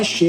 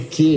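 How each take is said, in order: First: The word begins with an sh sound. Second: The word begins with a k sound. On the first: The speaker calls it wrong. "C H E não é che" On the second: The speaker calls it right. "é que"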